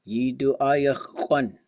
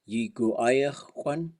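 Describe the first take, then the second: First: The first word has a D sound. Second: The first word has a G sound. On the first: This is how the speaker's source heard and said it. "he always said it with a D" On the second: This is the more common way people say it. "this is often said with a G"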